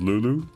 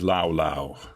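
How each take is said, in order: First: The vowels sound like 'oo'. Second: The vowels sound like 'ow'. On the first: "It's called Lulu" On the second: "If you pronounce that name the Dutch way"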